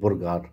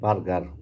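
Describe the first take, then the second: First: The first vowel is a rounded 'o' sound. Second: The first vowel is an open 'a' sound. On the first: This imitates someone else's pronunciation. "উনি ও ওইটা উচ্চারণ দেখে কয় বোরগার" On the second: This is how most people say it. "আমরা বলি বার্গার"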